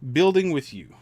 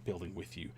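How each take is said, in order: First: "building" punched high and loud, falling; stressed building with you. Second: "building" said low and much softer, tossed off; soft correction. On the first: Telling viewers he enjoys building together, "building" stressed loud. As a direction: lean hard on "building" with a falling tune. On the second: Correcting himself to viewers, "building" dropped low and soft. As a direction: murmur "building with you" as a quiet afterthought. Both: Shown as a demonstration. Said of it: "I mean".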